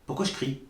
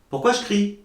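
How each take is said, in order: First: Said in the usual way. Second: "Pourquoi je crie?" repeated higher with the pitch pushed up; louder self-question. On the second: Real, not acted. Re-asking herself, higher, why she yells at the spirit. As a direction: throw the question out again, higher and amused. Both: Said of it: "je hurle".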